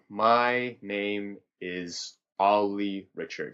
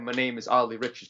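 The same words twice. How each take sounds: First: It is drawn out very slowly, like whale speech. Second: It is spoken with a strong rhythmic beat. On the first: "a different tempo would be saying ... So speak whale" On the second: "a rhythm ... Put a beat on it"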